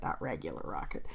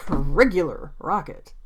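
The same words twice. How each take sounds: First: Much lower, softer throwaway; quiet aside. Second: Slow, deliberate stress on "Regular Rocket"; capitalized emphasis. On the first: Real, not acted. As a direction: drop it low and soft, as an aside. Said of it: "which I did capitalize". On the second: Shown as a demonstration. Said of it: "I did capitalize in my script".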